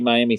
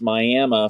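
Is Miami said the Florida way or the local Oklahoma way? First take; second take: Florida way; Oklahoma way. First: It is said like the Florida city's name. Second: It is said the local Oklahoma way. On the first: It names the city in Florida. "like you would see Miami, Florida" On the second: It names the local tribe and town.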